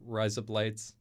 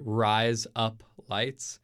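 First: The phrase is said quickly, run together. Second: The phrase is said at a normal pace.

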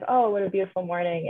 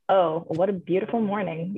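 First: It is said in a sincere, cheerful tone. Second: It is said in a sarcastic tone.

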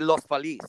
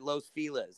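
First: The name is said with Spanish pronunciation. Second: The name is said with English pronunciation. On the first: The speaker calls it right. "It should be Los Feliz" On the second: The speaker calls it wrong. "everyone calls it Los Feliz"

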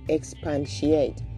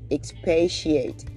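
First: The word is said with an added N sound. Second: The word is said without any N sound. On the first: The speaker calls it wrong. "there is no N in that word. So you don't say expatiate" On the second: The speaker calls it right. "you meant to say expatiate"

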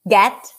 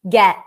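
First: The final T is released with audible air. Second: The final T is held without release. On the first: "you can release the T" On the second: "A lot of times they would hold it"

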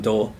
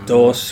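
First: The final s is dropped, costeño style. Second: The final s is pronounced.

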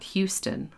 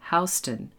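First: Houston is said like the Texas city name. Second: Houston is said unlike the Texas city name. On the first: It names the city in Texas. The speaker calls it wrong. "not Houston, like the city in Texas" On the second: It names the New York street. The speaker calls it right. "remember to pronounce the name of the street Houston"

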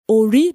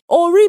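First: The first syllable is on a low pitch. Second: The first syllable is on a mid pitch. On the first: It means shea butter. "that's shea butter" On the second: It means head. "Ori means head"

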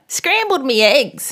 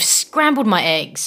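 First: The word before eggs is pronounced me. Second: The word before eggs is pronounced my. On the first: The speaker calls it right. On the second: The speaker calls it wrong.

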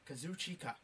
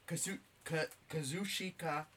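First: The name comes out clean and clear. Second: The name comes out mangled and garbled. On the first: The speaker calls it right. "There, I said it right that time" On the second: The speaker calls it wrong. "God damn it, I slaughtered that"

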